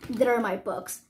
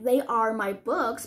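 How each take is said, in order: First: They are is shortened into one syllable. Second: They are is said as two full words.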